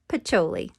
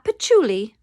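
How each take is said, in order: First: The name sounds like Pacioli, not patchouli. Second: The name sounds like the word patchouli. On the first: The speaker calls it right. "the correct pronunciation is Luca Pacioli" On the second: The speaker calls it wrong. "not Patchouli"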